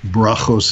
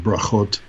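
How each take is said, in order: First: The word ends with an s sound. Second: The word ends with a t sound. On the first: "the T is pronounced as an S"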